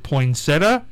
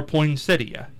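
First: "poinsettia" said poin-SET-uh, ending in plain uh; three-syllable poinsettia. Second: "poinsettia" said poin-SET-ee-uh, with the i sounded; four-syllable poinsettia. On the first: Host polls guest on the word, three-syllable poin-SET-uh. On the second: Host polls guest on the word, four-syllable poin-SET-ee-uh. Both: Shown as a demonstration. Asks which of two pronunciations.

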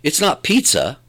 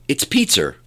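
First: "pizza" ending in an open "uh", no R; "pizza" as PEET-suh; standard pronunciation. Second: "pizza" with an R added at the end; New York added R. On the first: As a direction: say "pizza" the standard way, without an R at the end. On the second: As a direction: say "pizza" as PEET-ser, New York style. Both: Shown as a demonstration. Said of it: "they add R's on the name".

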